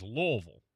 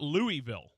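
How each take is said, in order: First: "Louisville" said as LUH-vul, almost one syllable; right pronunciation. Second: "Louisville" said as LOO-ee-vill with a clear E sound; wrong pronunciation. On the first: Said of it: "It is Louisville". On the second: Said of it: "it is not Louisville". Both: Shown as a demonstration.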